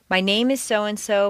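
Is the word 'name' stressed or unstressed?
stressed. The word 'name' carries the main stress. More personal details are about to follow. The speaker calls it wrong. "If you stress name, it sounds as if you're going to continue with more personal information"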